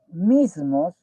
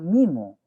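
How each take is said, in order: First: The s before the m is clearly pronounced. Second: The s before the m is weakened or dropped. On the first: "para decir este, mismos" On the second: "dicen, ¿no? Mimo"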